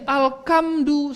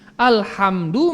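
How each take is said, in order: First: The consonant after 'al' is a k sound. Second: The consonant after 'al' is an h sound. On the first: The speaker calls it wrong. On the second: The speaker calls it right.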